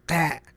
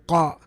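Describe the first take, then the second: First: The first consonant sounds light and thin. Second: The first consonant sounds heavy and full. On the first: "if it was not استعلاء" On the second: "As opposed to"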